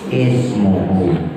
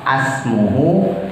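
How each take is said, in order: First: The word begins with an i vowel. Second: The word begins with an a vowel. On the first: The speaker calls it right. "tapi ismuhu" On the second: The speaker calls it wrong. "bukan asmuhu"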